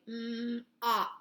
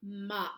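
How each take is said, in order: First: M-op stretched apart, sound by sound; sounded out slowly. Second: Said in the usual way. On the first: Shown as a demonstration. Teacher sounding out a word for children, slow. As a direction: slowly blend m-op. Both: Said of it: "it's going to be a short sound".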